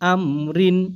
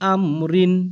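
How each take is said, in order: The two takes are said the same way.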